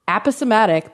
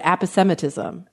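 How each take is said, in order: First: Aposematic said ap-uh-suh-MAT-ik; dictionary pronunciation. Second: Aposematism said ap-uh-SEM-uh-tism; dictionary pronunciation. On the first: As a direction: main stress on MAT in aposematic. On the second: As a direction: main stress on SEM in aposematism. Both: Shown as a demonstration. Host repeating what the sites play, dictionary pronunciation. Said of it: "I hit the little thingy".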